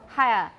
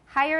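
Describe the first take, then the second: First: It is said with a British accent. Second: It is said with an American accent. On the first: "in British" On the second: "in American"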